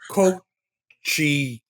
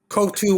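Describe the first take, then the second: First: The surname is said like 'Coochie'. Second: The surname is said as spelled, like 'Kotu'. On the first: This is the pronunciation the family has used for decades. "people call me Coochie" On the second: This is the pronunciation that follows the spelling. "that's the normal way"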